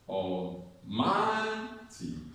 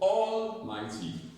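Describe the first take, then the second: First: The stress is on the second syllable. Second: The stress is on the first syllable. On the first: The speaker calls it right. "the correct stress pattern goes like this" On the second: The speaker calls it wrong. "you're stressing all"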